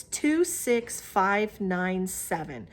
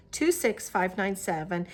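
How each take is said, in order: First: Each number spaced out slowly; slow dictation. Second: Said in the usual way. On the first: Shown as a demonstration. Knitter dictating a yarn colorway number to viewers, slow and careful. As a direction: read the digits slowly so viewers can note them. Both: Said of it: "the colorway is by a number".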